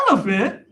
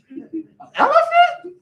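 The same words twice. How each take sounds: First: Said in the usual way. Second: Much higher, slow, laughing put-on rapper voice. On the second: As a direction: squeal it out high and slow with a laugh. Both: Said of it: "I gotta get in my [name] voice now".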